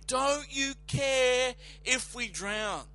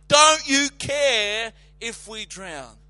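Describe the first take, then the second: First: Slow, whining accusation; a mild mock accusing whine; accusing fishermen. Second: Loud, slow accusing cry; panicked fishermen yelling the accusation; accusing shout. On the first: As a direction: plead like terrified fishermen. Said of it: "fear-stricken fishermen accusing him". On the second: Retold or imitated. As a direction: hurl the accusation at him. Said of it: "Accusing him, full of unbelief".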